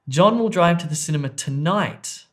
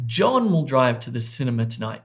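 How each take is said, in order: First: The stress falls on the word tonight. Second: The stress falls on the word John. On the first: It happens this evening, not on another day. "not tomorrow" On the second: It is this person, not someone else, who will drive. "not Sally"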